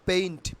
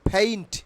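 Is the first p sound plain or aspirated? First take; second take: plain; aspirated. First: The first p is plain, without a puff of air. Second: The first p has a strong puff of air. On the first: The speaker calls it wrong. "Not পেইন্ট" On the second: The speaker calls it right.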